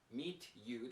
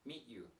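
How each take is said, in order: First: Both words are said separately and clearly. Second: The two words blend together into one sound. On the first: "that's very clear though" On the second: "In natural English, we often change the pronunciation"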